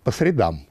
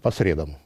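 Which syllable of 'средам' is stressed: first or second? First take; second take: second; first. First: The stress is on the second syllable of средам. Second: The stress is on the first syllable of средам. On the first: It names the day of the week, Wednesday. The speaker calls it right. "Нет, по средам" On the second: It names physical or chemical media, not weekdays. The speaker calls it wrong. "ударение не так ставится"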